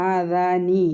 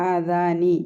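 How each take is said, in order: No difference in how they are said.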